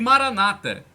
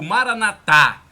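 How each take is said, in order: First: The stress is on the second-to-last syllable. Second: The stress is on the last syllable. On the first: This is how Protestants say it. "como dizem os protestantes, os protestantes dão a tônica na penúltima sílaba" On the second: This is how Catholics say it. "como dizem os católicos, os católicos colocam a tônica na última sílaba"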